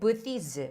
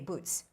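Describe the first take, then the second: First: The word is said with a non-native pronunciation. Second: The word is said with a native pronunciation. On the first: The speaker calls it wrong. "you said booths" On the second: The speaker calls it right. "They would say boots"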